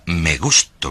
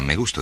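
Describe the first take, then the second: First: It is said with strong, warm feeling. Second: It is said flatly, without feeling.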